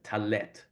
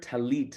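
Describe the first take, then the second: First: The second vowel sounds like 'eh'. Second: The second vowel sounds like 'ee'. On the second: This is the modern Hebrew form. "you hear talit now in modern Hebrew"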